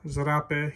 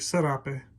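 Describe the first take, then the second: First: The word begins with a Z sound. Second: The word begins with an S sound. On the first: This is how it is said in Europe. "They pronounce it with a Z in uh, Europe" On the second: This is how it is said in Texas. "Here in Texas, we say"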